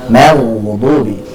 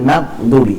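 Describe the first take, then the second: First: The gh sound flows on without stopping. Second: The gh is cut off like a hard g. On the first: The speaker calls it right. "Harusnya kita alirkan" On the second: The speaker calls it wrong. "jadi huruf G"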